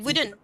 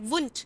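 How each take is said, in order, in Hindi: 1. यह दो सिलेबल में बोला जाता है, जैसे "wooden"। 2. यह एक छोटे सिलेबल में बोला जाता है, जैसे "woont"। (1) "वुड नॉट को हम वुडन प्रोनाउंस करते हैं" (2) "कुछ लोग वुंट भी प्रोनाउंस करेंगे"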